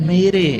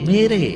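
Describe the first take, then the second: No difference in how they are said.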